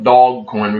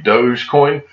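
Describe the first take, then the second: First: The first syllable sounds like 'dog'. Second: The first syllable sounds like 'dohj'. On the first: "but I call it Dog Coin" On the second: "the right pronunciation may be Dogecoin"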